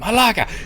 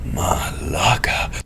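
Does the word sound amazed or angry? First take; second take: angry; amazed. First: It is said with an angry, harsh tone. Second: It is said with an amazed, awed tone. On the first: The speaker is furious. "like get angry" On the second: The speaker is astonished at what they see. "look at a giant walking in a room"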